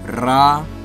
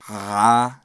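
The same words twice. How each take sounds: First: The trill is made with the tongue tip. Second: The trill is made deep in the throat. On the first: "You can trill the tip of your tongue" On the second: "or even your epiglottis, which I don't think I can do"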